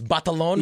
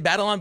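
First: The name is said with a Filipino pronunciation. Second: The name is said with an English-style pronunciation. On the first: "Like, the actual pronunciation" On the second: "I try to say Batalon"

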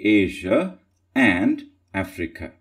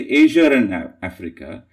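First: No R sound links 'Asia' to 'and'. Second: An R sound links 'Asia' to 'and'. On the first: "than saying Asia and Africa" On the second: "it's easier to say Asia and Africa"

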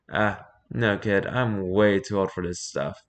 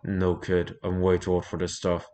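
First: It is said without the character's intended voice. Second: It is said in the character's intended voice. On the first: The speaker calls it wrong. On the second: The speaker calls it right.

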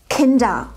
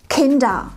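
No difference in how they are said.

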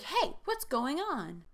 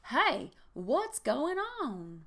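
First: It is said in a plain voice. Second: It is said in a Southern accent.

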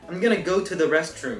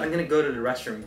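First: Each word is said carefully and separately. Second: The words run together with reduced sounds.

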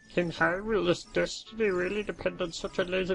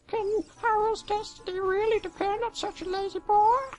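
First: It is said in a Zarya voice. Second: It is said in a Navi voice.

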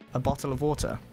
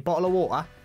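First: It is said without a London accent, clear t sounds. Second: It is said in a London accent, t dropped.

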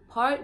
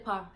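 First: The word ends with r and t sounds. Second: The word ends on the vowel alone. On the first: This is the complete standard form. "we don't say the complete word" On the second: This is how the speaker's community says it. "We say pa"

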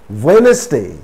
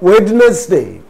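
First: No 'd' sound is pronounced in the word. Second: A 'd' sound is pronounced in the word. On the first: The speaker calls it right. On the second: The speaker calls it wrong.

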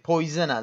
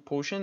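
First: The word is said with an oy and z sound. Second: The word is said with an sh sound. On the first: The speaker calls it right. "شما نگید پویزن در است" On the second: The speaker calls it wrong. "پو پوشن میگم چون حالا دهنم عادت کرده، ولی خب اشتباهه"

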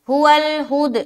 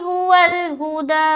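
First: The final vowel is dropped, ending on a consonant. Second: The final vowel is fully pronounced and held long. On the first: The speaker calls it wrong. "ये गलत है" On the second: The speaker calls it right. "तो यहाँ पर हम पूरा पढ़ेंगे"

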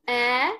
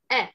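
First: The vowel sound is stretched out long. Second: The vowel sound is kept short. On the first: The speaker calls it wrong. "not eh" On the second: The speaker calls it right. "Don't stretch the sound. It's short"

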